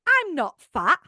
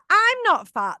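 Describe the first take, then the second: First: It is said with a plain, neutral tone. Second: It is said with a contrasting, pointed tone. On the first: It implies nothing about anyone else. The speaker calls it right. "that's different. You don't then think everyone else is" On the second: It implies that everyone else is fat. The speaker calls it wrong. "That tone makes it sound like, but everyone else is"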